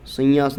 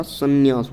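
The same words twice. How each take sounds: First: संन्यास with the nasal blurred into the y; संन्यास said as "sanyaas"; wrong form. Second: संन्यास with a clear double n; संन्यास said as "sann-yaas"; correct form. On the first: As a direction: slur the double n in संन्यास into "sanyaas". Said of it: "संन्यास नहीं होता". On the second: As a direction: sound both n's in संन्यास before the y. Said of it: "संन्यास होता है". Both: Shown as a demonstration.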